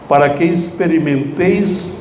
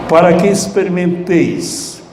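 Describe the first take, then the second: Both takes have the same delivery.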